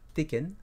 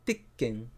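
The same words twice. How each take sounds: First: The word is said smoothly with no break. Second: The word has a tiny pause in the middle. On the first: The speaker calls it wrong. "c'est pas Tekken" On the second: The speaker calls it right. "il y a un, une petite pause au milieu"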